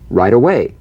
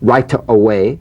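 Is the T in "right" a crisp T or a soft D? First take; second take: soft D; crisp T. First: The T in right is softened toward a D. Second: The T in right is a crisp, full T. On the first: The speaker calls it right. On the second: The speaker calls it wrong.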